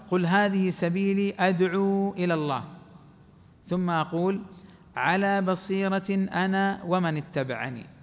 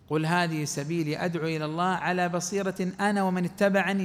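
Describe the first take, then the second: First: There is a pause right after 'ila Allah'. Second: It runs on without pausing after 'ila Allah'. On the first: Only the Prophet calls to God; clear sight belongs to his followers. The speaker calls it wrong. "لو أنا وقفت" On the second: Both the Prophet and his followers call to God with clear sight. The speaker calls it right. "لكن الصحيح نقول"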